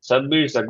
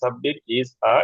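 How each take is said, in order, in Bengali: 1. শব্দগুলো থামা ছাড়াই একসাথে মিশে বলা হয়। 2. প্রতিটি শব্দের মাঝে একটু থামা হয়। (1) "তারা চাংকিং বলে এটাকে" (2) "নেটিভরা এভাবে সাব্বির ইজ আ এভাবে পজ নেবে না"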